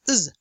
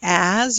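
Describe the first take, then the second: First: It is said with the vowel left out. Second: It is said with a full vowel. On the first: "or simply just uz" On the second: "Instead of saying as"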